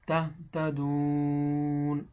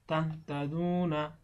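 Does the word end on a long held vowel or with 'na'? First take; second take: held vowel; na ending. First: The last vowel is held long and ends there. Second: The vowel is short and followed by 'na'. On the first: The reader stops at this word. "যদি আপনি ওয়াকফ করেন বা থামেন, তো সেই ক্ষেত্রে সেখানে তিন আলিফ দীর্ঘ করিয়া পড়িতে হবে" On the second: The reader continues without stopping. "যদি এখানে না থামতাম তাহলে হয়তো কি তাহতাদুনা, এক আলিফ টান"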